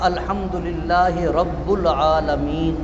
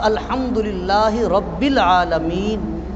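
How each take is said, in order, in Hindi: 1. 'rabb' शब्द के बाद 'u' स्वर आता है। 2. 'rabb' शब्द के बाद 'i' स्वर आता है। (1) "गलत है" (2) "ये ठीक है"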